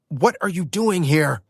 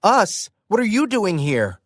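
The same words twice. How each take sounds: First: Matt's startled yell, a bit higher. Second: Higher, indignant shout thrown back; sharp retort. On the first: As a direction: shout the question in surprise. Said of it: "Matt yelled". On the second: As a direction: fire the question right back. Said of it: "I shot back". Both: Acted.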